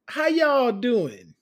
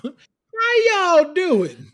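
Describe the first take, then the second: First: Slow, loud Southern greeting; stretched y'all, Southern; Southern drawl. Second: Very slow, loud, high Southern greeting; y'all stretched long, Southern; exaggerated Southern drawl. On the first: Acted. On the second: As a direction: ham up the Southern twang. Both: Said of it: "just oozed naturally out of you".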